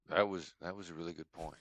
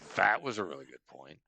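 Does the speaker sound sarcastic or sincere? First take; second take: sincere; sarcastic. First: It is said in a sincere, genuine tone. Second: It is said in a sarcastic, mocking tone. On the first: The listener's point is truly appreciated. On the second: The listener is being insulted.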